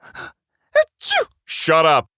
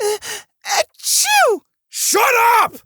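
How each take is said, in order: First: The "shut up" is said mildly. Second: The "shut up" is said aggressively.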